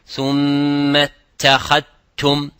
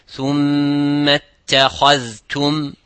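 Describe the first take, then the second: First: The dh is merged into a single t. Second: The dh and t are both clearly pronounced. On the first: The speaker calls it wrong. "and not ... is like you are saying the ta, not saying the dhal" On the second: The speaker calls it right. "we have to observe the dhal and we have to observe the ta"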